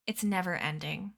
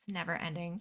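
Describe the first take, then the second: First: Said in the usual way. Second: Weary quiet. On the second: Shown as a demonstration. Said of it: "quieter repeat".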